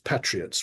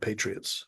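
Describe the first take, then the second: First: It is said with a British accent. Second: It is said with an American accent. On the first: "the British pronunciation is patriots" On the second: "rather than patriots"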